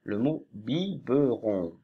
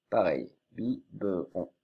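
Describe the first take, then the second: First: Biberon lentement, chaque syllabe posée; lent et articulé. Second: Said in the usual way. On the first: Shown as a demonstration. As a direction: dictez biberon doucement. (biberon lent, voix de maîtresse)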